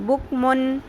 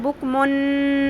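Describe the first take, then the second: First: The n sound is clear and short. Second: The n sound is drawn out long. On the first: The speaker calls it right. "नून को ज़ाहिर करेंगे तो वो शॉर्ट ही रहेगा" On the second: The speaker calls it wrong. "यहाँ पर लंबा नहीं करेंगे ... बुक मुन ऐसे नहीं करना"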